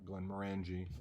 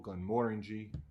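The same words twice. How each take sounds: First: The stress is not on the second syllable. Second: The stress is on the second syllable. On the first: The speaker calls it wrong. "not Glenmorangie or something else" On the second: The speaker calls it right. "the emphasis is supposed to be on the second syllable"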